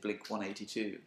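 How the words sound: The number is read in the American way. "They say Blink 182"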